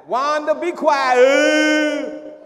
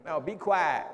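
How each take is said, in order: First: High, loud, slow imitated bellow; mock shout. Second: Said in the usual way. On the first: The lady on Good Times yelling at Wanda, high loud mock shout. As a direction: drag out a big showy yell. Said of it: "be like the lady".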